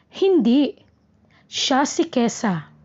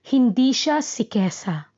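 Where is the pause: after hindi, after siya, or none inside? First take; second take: after hindi; none. First: There is a pause right after hindi. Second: There is no pause inside the phrase. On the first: The person being discussed is Kesa. "hinto pagkatapos ng hindi" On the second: The person being discussed is not Kesa. "Nasa dulo ang hinto"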